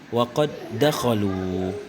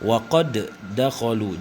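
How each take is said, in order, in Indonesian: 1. Huruf d pertama menyatu halus ke huruf kedua. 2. Huruf d pertama dilepas dengan gema memantul.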